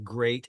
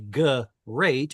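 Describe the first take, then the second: First: The g and r form one cluster. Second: A vowel separates the g and r. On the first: The speaker calls it right. "We say great" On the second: The speaker calls it wrong. "we wouldn't say great"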